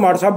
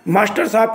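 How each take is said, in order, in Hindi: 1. कुछ ध्वनियाँ छोड़कर संक्षिप्त रूप में बोला जाता है। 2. वाक्यांश की हर ध्वनि पूरी तरह बोली जाती है।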